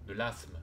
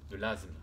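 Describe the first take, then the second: First: « asthme » dit « assme », s sourd; asthme avec s. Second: « asthme » dit « azme », s voisé en z; asthme avec z. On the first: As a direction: garder le s sifflé de « asthme ». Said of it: "certains diront de l'asthme". (« asthme » prononcé « assme ») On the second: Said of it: "Moi, je dirais l'asthme". (« asthme » prononcé « azme ») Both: Shown as a demonstration.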